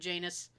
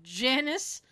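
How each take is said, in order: First: The word rhymes with anus. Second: The word does not rhyme with anus.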